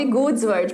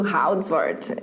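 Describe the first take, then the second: First: The name is pronounced in an English style. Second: The name is pronounced in a Dutch style. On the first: The speaker calls it wrong. "eu com o meu português, querendo falar inglês, citando o nome de um holandês" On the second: The speaker calls it right. "mais indo para a linha do Houdsword"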